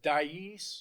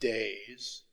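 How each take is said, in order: First: The word sounds like 'dice'. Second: The word sounds like 'days'. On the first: "I heard somebody pronounce it Dice" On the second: "So apparently I'm pronouncing it wrong"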